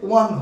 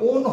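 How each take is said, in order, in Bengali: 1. শব্দটি 'wuh' ধ্বনি দিয়ে বলা হয়, 'one'-এর মতো। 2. শব্দটি 'oh' স্বরধ্বনি দিয়ে বলা হয়, 'own'-এর মতো। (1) "উচ্চারণটা হচ্ছে ওয়ান হয়" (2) "উচ্চারণটা কখনো ওন হয় না"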